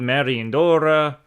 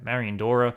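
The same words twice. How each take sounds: First: The name is said with an Italian-style accent. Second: The name is said with a plain English accent. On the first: The speaker calls it wrong. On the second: The speaker calls it right.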